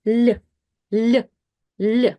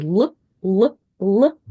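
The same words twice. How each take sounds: First: "l" palatalised, with a y colour; isolated "l" softened towards ly; soft l. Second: "l" with a hard, unsoftened sound; isolated dark "l", not palatalised; default hard l. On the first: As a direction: repeat a soft Russian "l" in isolation. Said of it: "switch it to the soft l". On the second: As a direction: repeat a plain hard "l" in isolation. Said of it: "instead of using the s-, default sound". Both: Shown as a demonstration.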